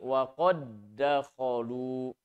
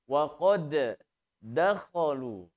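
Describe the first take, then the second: First: The two d sounds merge into one, without bounce. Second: The first d is bounced, then a second d. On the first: The speaker calls it right. "huruf dal yang pertama yang sukun lebur ke huruf dal yang kedua ... tidak dipantulkan" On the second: The speaker calls it wrong. "dal yang pertama sukun mempunyai sifat qalqalah, maka ketika membacanya pun harus dipantulkan"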